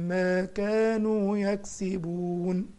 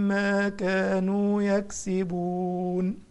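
No difference in how they are said.

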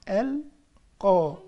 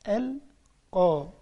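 No difference in how they are said.

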